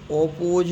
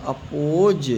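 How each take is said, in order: First: ओपोज starting on a full 'oh'; wrong reading of oppose. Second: अपोज starting on a short 'uh'; correct reading of oppose. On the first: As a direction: open ओपोज with a round o. (गलत उच्चारण, ओपोज 'ओ' से शुरू) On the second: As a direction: open अपोज with a schwa, then long o. (सही उच्चारण, अपोज 'अ' से शुरू) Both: Shown as a demonstration. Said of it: "ओपोज नहीं पढ़ेंगे".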